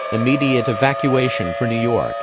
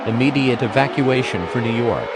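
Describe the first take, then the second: No difference in how they are said.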